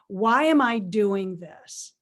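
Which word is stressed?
why. The stress falls on the word why. It asks what the purpose of the activity is.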